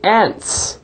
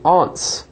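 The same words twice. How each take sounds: First: It is said the American way. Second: It is said the English way.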